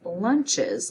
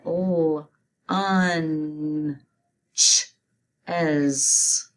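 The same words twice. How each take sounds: First: Said in the usual way. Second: "L, un, ch, es" in separate chunks, with pauses; sounding out. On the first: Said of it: "You say it". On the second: Shown as a demonstration. Teacher spelling lunches for students, sounding out "L, un, ch, es" piece by piece. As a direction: split "L, un, ch, es" sound by sound. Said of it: "Let's spell it".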